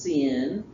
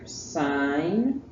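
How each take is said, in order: First: The word has a short 'i' vowel. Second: The word has a long 'eye' vowel. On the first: The speaker calls it wrong. "It is not pronounced sin" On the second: The speaker calls it right. "that's pronounced S I N E"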